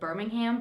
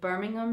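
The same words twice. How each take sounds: First: Birmingham is said with an American-style pronunciation. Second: Birmingham is said with a British-style pronunciation. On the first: This is the way it was said before moving. "before I would have said Birmingham" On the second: This is the newly picked-up local way. "I've picked up on saying Birmingham now"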